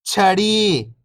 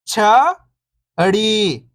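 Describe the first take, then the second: First: Whole word, level then falling at the end; syllables blended. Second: First syllable lifting, pause, second falling. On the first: Teacher showing beginners the joined word, syllables blended. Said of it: "इनको आपस में लाके पढ़ना है". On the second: Teacher breaking a word down for beginning readers, syllable by syllable. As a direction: sound out each syllable alone, long and separated. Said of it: "एक अक्षर का उच्चारण करके". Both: Shown as a demonstration.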